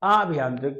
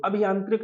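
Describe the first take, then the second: First: आभयांत्रिक with a long opening aa; correct spelling read out. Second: अभियांत्रिक with a short opening a; wrong spelling read out. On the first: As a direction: say आभयांत्रिक starting on a drawn aa. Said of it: "इसका विकल्प हो जाएगा तीसरा वाला". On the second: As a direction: say अभियांत्रिक as "a-bhi-yaantrik", first vowel short. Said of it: "नहीं". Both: Shown as a demonstration.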